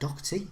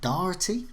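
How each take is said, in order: First: The name is said in a plain accent. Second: The name is said in an Irish-style accent. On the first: The speaker calls it wrong. "I completely um, uh, pr- uh, mispronounced" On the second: The speaker calls it right. "this is probably a better effort"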